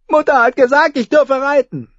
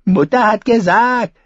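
First: Put-on high, pleading child; whiny little boy. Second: Sneering mock of the child; mocking imitation. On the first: A narrator's reading. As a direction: appeal to what mother said. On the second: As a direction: ape the little brother's whine. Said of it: "äffte der König sie nach".

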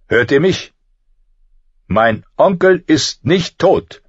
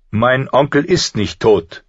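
First: High slow furious shout. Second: Raised angry denial. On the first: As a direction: bellow it, echoing off stone. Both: Acted. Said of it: "laut und voller Zorn".

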